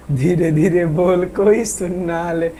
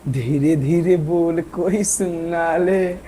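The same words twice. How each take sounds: First: Slow, hushed sung repeat; quiet slow croon; soft sung line. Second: Slow, soft and sung low; hushed slow film-song croon; softly sung line. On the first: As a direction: sing it again gently, slowly. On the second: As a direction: croon it quietly so nobody hears. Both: Shown as a demonstration. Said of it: "धीरे धीरे बोल रहे हैं".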